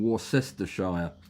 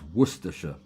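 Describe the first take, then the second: First: Every written syllable of the word is sounded out. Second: The word is said shortened, with syllables dropped. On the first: The speaker calls it wrong. "That's not how you pronounce it" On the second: The speaker calls it right. "It's Worcestershire"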